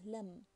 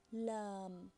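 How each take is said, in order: First: Lam with a short a; short vowel. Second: Lam with a long, held a; long vowel. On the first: Teacher explaining fatha alone, lam with short vowel. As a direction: say lam with a quick a. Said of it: "it will be pronounced as". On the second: Teacher explaining alif after fatha, lam drawn out long. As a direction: draw out the a in lam. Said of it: "be pronounced as". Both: Shown as a demonstration.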